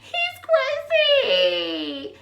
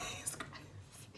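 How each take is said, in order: First: Very slow, high sing-out; hammed-up, drawn-out high-pitched exclamation; high squeal. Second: Slow, hushed whisper; drawn-out voiceless whisper; dramatic whisper. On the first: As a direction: stretch it into a high comic squeal. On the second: Acted. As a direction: whisper it as a stunned aside. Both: Same words whispered, then squealed.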